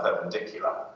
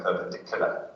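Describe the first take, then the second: First: Said in the usual way. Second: "perpendicular" with no y sound before the u; yod dropped. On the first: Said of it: "you drop your yods all the time". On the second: Shown as a demonstration. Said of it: "So that y is missing".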